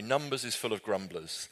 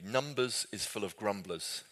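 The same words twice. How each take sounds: First: Said in the usual way. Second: Slow, deliberate quoting of a remembered line; slow quoted phrase. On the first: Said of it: "that's a pretty good summary". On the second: Shown as a demonstration. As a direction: say it slowly like a catchphrase. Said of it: "the phrase that stuck with me".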